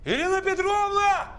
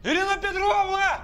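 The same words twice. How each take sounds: First: High, panicked call for help. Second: High, panicked call held long; calling out again. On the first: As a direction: yell for help across the flat. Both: Acted.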